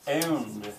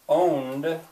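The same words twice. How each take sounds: First: The vowel is said as a local EU-like glide. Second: The vowel is said in the speaker's usual way. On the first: "I would write that down as E U" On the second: "He owned owned"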